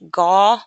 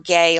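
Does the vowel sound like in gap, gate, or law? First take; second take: law; gate. First: The vowel is the open aw sound. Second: The vowel is the long ay sound. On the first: "like in law" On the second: "like in gate"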